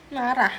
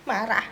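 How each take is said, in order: Both takes have the same delivery.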